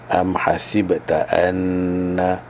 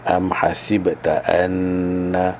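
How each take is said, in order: First: The nasal in anna is held for two counts. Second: The same.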